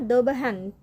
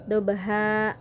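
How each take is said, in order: First: The word ends with an n sound. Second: The word ends on a long a, no n. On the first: This is the full form when reading on. "Dalam ayat sebenarnya dobahan" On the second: This is the form used when stopping. "karena wakaf berhenti, jadi bacanya adalah dobaha"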